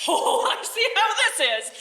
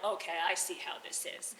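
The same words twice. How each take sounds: First: Put-on high, loud old woman, half laughing; shrill old lady. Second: Low, soft, knowing snake voice; low grumbling snake. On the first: Old lady snaps back at the snake, high and loud. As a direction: squawk it like a caught old crone. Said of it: "And the old lady's like". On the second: Acted. Snake grumbles at the old lady, low and soft. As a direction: murmur it low like a sly serpent. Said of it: "And the snake is like".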